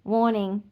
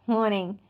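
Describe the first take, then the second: No difference in how they are said.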